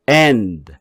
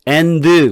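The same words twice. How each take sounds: First: The final D is weak and unstressed. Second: The final D is strong and accented. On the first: The speaker calls it right. "앞에 n에다가 액센트를 집어넣어 줄 테니까 D자 발음은 그냥 자석처럼 따라오게" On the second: The speaker calls it wrong. "이렇게 하게 되면은 D자에도 액센트가 들어간 거나 마찬가지잖아요"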